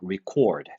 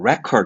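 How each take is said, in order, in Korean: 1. 강세는 두 번째 음절에 있어요. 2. 강세는 첫 번째 음절에 있어요. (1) "동사일 때는 액센트가 이음절에 가야 돼요" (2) "record라고 발음하면 명사로서 기록"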